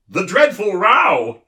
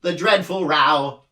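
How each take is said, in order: First: High, loud and bright, slowed; eager know-it-all chirp; bright humbug. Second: Higher, wailing din; mournful creature cry; grieving for a lost grandfather; anguished cry. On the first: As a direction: pipes up proudly, much louder. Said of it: "volunteered the humbug brightly". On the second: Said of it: "cried the anguished din". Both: A narrator's reading.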